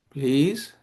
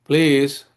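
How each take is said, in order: First: PLEASE as a question-like request, tone lifting at the end; polite request tone. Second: PLEASE pushed out loud; an exasperated, louder PLEASE without the questioning lift; frustrated PLEASE. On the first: Teacher showing how tone changes intent, rising PLEASE. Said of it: "depending on the tone, you know". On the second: Asking a kid when you're frustrated, exasperated PLEASE. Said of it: "when you ask a kid, you're frustrated". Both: Shown as a demonstration.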